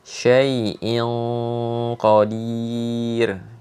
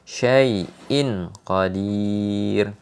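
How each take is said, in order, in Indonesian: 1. N-nya tersembunyi, disengaukan ke bunyi berikutnya. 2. N-nya diucapkan penuh dan jelas.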